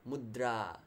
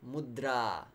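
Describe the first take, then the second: No difference in how they are said.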